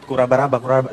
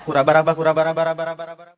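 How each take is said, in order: First: A follower copying the chant, slowly and low; mock slow tongues. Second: The same nonsense chant rattled off quicker; faster mock chant. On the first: Congregant repeating after the pastor, hesitant mock chant. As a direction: haltingly mimic the strange syllables. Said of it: "Akhirnya nih orang ikut". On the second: Told to go faster, congregant rushes the mock chant. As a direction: speed up the kurabaraba chant, fading at the end. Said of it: "Lebih cepat, Pak".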